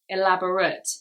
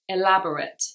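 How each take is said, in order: First: It is said with the adjective pronunciation. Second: It is said with the adjective pronunciation.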